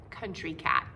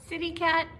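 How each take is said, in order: First: Country Cat dropped low and falling; low title read. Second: City Cat lifted high and bright; perky title call. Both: Shown as a demonstration. Title repeated with contrast.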